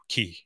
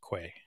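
First: The word is said like 'key'. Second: The word is said like 'kway'. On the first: This is the British-style pronunciation. "closer to the British English, so Key" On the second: This is the Americanized pronunciation. "not the Americanized Quay"

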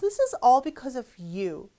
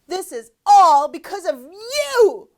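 First: It is said at a normal, calmer volume. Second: It is said loudly, somewhat shouted. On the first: The speaker is mildly annoyed. "이러면 다 너 때문이잖아, 이거고" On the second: The speaker is very angry. "이거 다 너 때문이잖아, 막 이런 식으로 약간 소리를 지르는 거겠죠"

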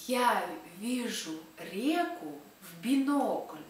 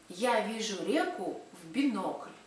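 First: It is said very slowly. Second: It is said at a normal speaking pace.

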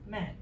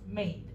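First: The vowel is short, like in mad. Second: The vowel is long, like in made. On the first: The speaker calls it wrong. "I heard mad" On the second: The speaker calls it right. "the right pronunciation is made"

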